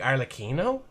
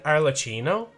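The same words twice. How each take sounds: First: The middle consonant is a k sound. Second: The middle consonant is a ch sound. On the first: The speaker calls it right. "Do two C's make a K?" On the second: The speaker calls it wrong. "have I been saying it wrong this entire time?"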